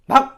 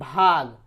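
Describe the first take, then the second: First: It is said harshly, like chasing someone off. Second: It is said calmly and politely.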